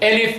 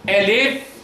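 First: The word is said quickly. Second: The word is drawn out slowly. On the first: This is the fast recitation pace. "Bir de hızlı yapalım" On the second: This is the slow, careful recitation pace. "Yavaş yavaş söylersen elif"

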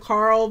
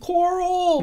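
First: The name is said plainly as 'Carl'. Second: The name is drawn out to sound like 'Coral'. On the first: It is the ordinary way the name is said. "instead of Carl" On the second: It imitates how the actor says the name. "his British accent just kind of comes in a little bit"

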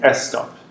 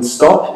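First: An extra vowel sound comes before the S. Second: The word starts directly with the S sound. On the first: "they might say S stop" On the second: "rather than stop in English"

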